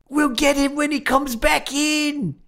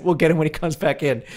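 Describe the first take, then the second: First: High, slow, drawn-out mock Australian shout; bad Australian accent. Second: Said in the usual way. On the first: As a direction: imitate a hammed-up Australian cop calling out, high and slow. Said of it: "doing a bad Australian accent". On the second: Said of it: "shouting in an Australian accent".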